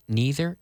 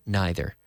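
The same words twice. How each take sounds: First: Neither said as "nee-ther", with a long ee. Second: Neither said as "nigh-ther", with an eye sound; neither with long i. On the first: Teacher showing radio learners the "nee-ther" pronunciation. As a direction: say neither with an ee sound, rising at the end. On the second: Teacher showing radio learners the "nigh-ther" pronunciation. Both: Shown as a demonstration. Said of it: "You can say it either way".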